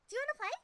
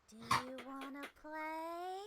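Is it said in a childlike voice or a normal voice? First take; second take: childlike; normal. First: It is said in a little kid's voice. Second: It is said in a normal, unchildlike voice.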